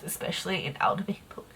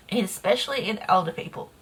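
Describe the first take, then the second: First: Dropped to a soft whisper; soft whisper under the breath. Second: Said in the usual way. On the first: Real, not acted. Repeats the phrase, first whispered.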